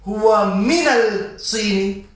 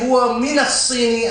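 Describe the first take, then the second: First: The L is clearly pronounced before the S. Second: The L merges into the following S sound. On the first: The speaker calls it wrong. "you didn't say هو من الصين" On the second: The speaker calls it right. "why did you say هو من الصين"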